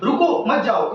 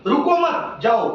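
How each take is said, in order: First: रुको on its own, then मत जाओ together; pause after रुको. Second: रुको मत joined, short break, slow जाओ; pause after मत. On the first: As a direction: break between रुको and मत. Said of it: "insulator". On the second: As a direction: say "रुको मत" as one high phrase, then "जाओ". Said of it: "conductor". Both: Shown as a demonstration.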